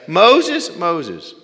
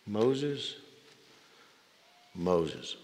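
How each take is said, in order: First: First Moses called out high and loud, second falls back; ringing call, then a falling echo; divine call. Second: Hushed, loving repetition of the name; tender call. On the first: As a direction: call the name out from heaven. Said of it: "Why did he say it twice?". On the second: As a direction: say the name like a caress. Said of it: "a repetition of endearment". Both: Pretend.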